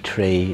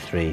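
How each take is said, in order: First: It begins with a plain t sound. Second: It begins with a th sound. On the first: This is how people from Dublin say it. "they don't pronounce their H's here, which is tree" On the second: This is how people from Belfast say it. "And I say three"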